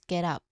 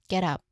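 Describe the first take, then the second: The two takes are said the same way.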